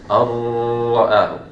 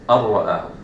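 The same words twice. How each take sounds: First: The merged sound is held too long. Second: The merged sound is held briefly, one beat. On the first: The speaker calls it wrong. "I don't say" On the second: The speaker calls it right. "I say"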